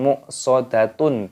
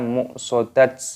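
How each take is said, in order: First: The word ends with a full 'tun' sound. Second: The word ends with a bare 't' sound. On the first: The speaker calls it wrong. "bukan muqsadatun" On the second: The speaker calls it right. "atau juga muqsadat"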